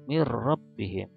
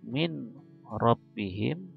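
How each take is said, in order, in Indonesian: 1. Bunyi n menyatu menjadi bunyi r ganda. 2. Bunyi n diucapkan jelas sebelum r.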